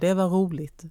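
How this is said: The R sounds are dropped, dialect style. "fast vi kanske skulle säga"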